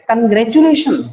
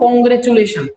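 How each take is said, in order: First: The first syllable has a weak 'uh' vowel. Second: The first syllable has an 'o' vowel. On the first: The speaker calls it right. "इसका सही प्रोनाउंसिएशन" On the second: The speaker calls it wrong. "ओ की sound नहीं है starting में, लेकिन हम इसमें ओ की साउंड देते हैं।"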